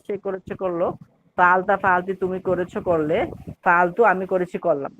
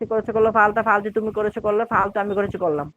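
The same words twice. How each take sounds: First: It is said piece by piece with pauses. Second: It is said in one breath without pauses.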